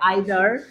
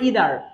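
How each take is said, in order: First: The first vowel sounds like 'eye'. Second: The first vowel sounds like 'ee'.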